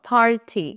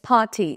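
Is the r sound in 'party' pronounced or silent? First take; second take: pronounced; silent. First: The r sound after the vowel is pronounced. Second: The r sound after the vowel is silent. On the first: The speaker calls it wrong. "Not পার্টি" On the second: The speaker calls it right. "পার্টি উচ্চারণে কিন্তু আর pronounce হয় না, it's পার্টি"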